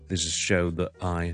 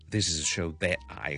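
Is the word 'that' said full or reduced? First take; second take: reduced; full. First: The word 'that' is weak and reduced. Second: The word 'that' is full and strongly pronounced. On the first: The speaker calls it right. "就系the 咁弱噶啦" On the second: The speaker calls it wrong. "咁咧就太夸张"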